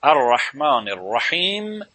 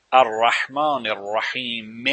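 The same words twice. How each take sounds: First: Slow الرحمن الرحیم closing on a bare m; final vowel dropped. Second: Slow الرحمن الرحیم ending on a long "-me"; final vowel sounded. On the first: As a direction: end الرحیم on m, no vowel after it. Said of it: "دیگه حرکت رو نمیگه". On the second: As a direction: sound the short i at the end of الرحیم. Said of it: "حرکت رو میگه". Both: Shown as a demonstration.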